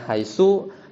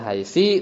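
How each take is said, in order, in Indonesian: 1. Kata itu diakhiri dengan vokal u. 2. Kata itu diakhiri dengan vokal i. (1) "Haitsunya bisa bidhammi" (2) "haitsi bil kasri"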